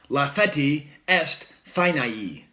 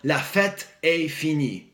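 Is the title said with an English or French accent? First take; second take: English; French. First: It is said with an English pronunciation. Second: It is said with a French pronunciation.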